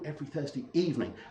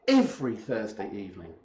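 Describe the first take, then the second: First: The word evening carries the stress. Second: The word every carries the stress. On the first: It is in the evening, not the morning. "if it's evening and not morning" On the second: It happens each Thursday, not just one. "it's not just Sheriff Четверг, it's every Thursday evening"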